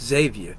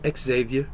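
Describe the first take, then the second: First: The name begins with a 'z' sound. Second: The name begins with an 'ex' sound. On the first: This is how people in the speaker's hometown say it. "where I'm from, we call it just Xavier. It has the Z" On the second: This is how people in this place say it. "as they say here"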